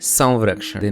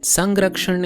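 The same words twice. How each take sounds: First: The nasal has a slight v sound. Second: The nasal is plain, with no v sound. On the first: This is the Marathi pronunciation. "in Marathi" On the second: This is the Hindi pronunciation. "in Hindi"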